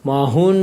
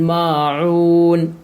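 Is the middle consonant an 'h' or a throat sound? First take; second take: h; throat sound. First: The middle consonant is a plain 'h'. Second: The middle consonant is a deep throat sound. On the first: The speaker calls it wrong. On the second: The speaker calls it right.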